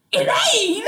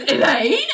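First: High-pitched mock-incredulous cry of a name. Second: Mock-startled questioning name, pitch raised; puzzled calling. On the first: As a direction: call her out in disbelief, high and half laughing. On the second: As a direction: call the name as a rising question. John startled, calls out questioningly.

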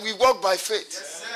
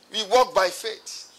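First: WALK stressed again, slow and deliberate; deliberate "We walk by faith"; slow repeat. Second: WALK stressed, slow and deliberate; drawn out "We walk by faith"; slow, stressed repeat. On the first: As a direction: spell out "We walk by faith" slowly, hitting "walk". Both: Shown as a demonstration. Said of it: "Oh, you don't understand?".

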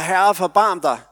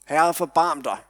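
First: Higher, louder desperate plea; louder cry for mercy. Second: Mild mock call for mercy; retold cry for mercy. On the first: Retold or imitated. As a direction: cry out over the crowd, pleading. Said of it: "Der råbes højere". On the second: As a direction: call out, pleading but held back. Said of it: "så råber det her menneske".

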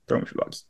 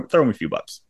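First: Whispered repeat; breathy aside, almost silent. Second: Said in the usual way. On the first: Real, not acted. Echoes previous line quietly.

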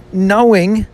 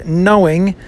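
First: "knowing" pitched high with a rising end; questioning. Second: Said in the usual way. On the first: Shown as a demonstration. Reader not really sure of knowing, "knowing" as a high question. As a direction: turn "knowing" into an unsure question. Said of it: "question mark". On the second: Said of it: "but at least I'll say".

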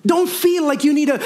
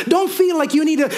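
Both takes have the same delivery.

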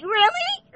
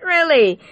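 First: "really?" in a very high rising squeak of disbelief; incredulous. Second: "Really?" higher, falling flat in disbelief; unimpressed. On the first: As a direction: shoot "really?" way up like you can't believe it. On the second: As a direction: drop "Really?" down, dry and fed up. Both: Retold or imitated. Disbelief at a person's actions.

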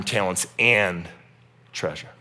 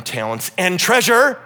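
First: Said in the usual way. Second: "treasure" louder and higher with a rising end; stress on treasure. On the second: Shown as a demonstration. Pastor noting his own emphasis on "treasure", stressed. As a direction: lift and punch "treasure". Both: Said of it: "Ooh, interesting emphasis".

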